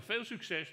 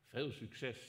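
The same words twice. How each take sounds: First: Mock well-wishing. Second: Dry ironic well-wishing. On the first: God mocking humanity's efforts. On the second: Acted. God's ironic farewell, repeated.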